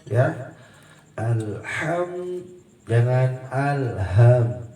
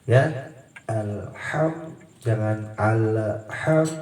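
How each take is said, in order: No difference in how they are said.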